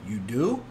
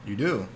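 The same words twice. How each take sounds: First: It is said with a questioning, rising tune. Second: It is said flatly, like a plain statement. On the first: It asks whether the claim is true. The speaker calls it right. "I meant as a more question" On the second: It asserts a fact about the listener. The speaker calls it wrong. "I said that in a matter of fact way"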